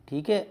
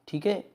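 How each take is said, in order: Both takes have the same delivery.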